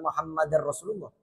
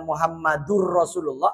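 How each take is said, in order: First: Muhammad ends with an 'a' vowel before rasulullah. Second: Muhammad ends with a 'u' vowel before rasulullah. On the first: The speaker calls it right. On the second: The speaker calls it wrong.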